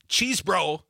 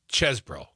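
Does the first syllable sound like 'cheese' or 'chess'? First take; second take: cheese; chess. First: The first syllable has a long ee vowel. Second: The first syllable has a short e vowel. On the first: The speaker calls it wrong. "It's not cheese bro" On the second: The speaker calls it right. "it's ches bro. Put another way, the E, is like dessert"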